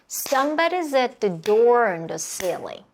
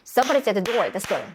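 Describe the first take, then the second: First: The sentence is spoken slowly with clear beats. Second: The sentence is spoken quickly with compressed beats. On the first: "전체 천천히 박수 쳐볼게요" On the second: "더 빠르게 쳐볼까요?"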